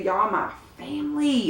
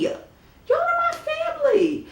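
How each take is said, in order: First: Said in the usual way. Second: Much higher, sing-song are my family; playful high repeat. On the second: Shown as a demonstration. Vlogger hyping subscribers as family, high and playful. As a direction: toss the line up high and playful.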